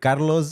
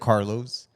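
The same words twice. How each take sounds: First: The name is said with a Spanish pronunciation. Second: The name is said with an English pronunciation. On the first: This is how the speaker normally says it. The speaker calls it right. "literally Carlos" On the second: The speaker does not normally say it this way. The speaker calls it wrong. "I don't say Carlos"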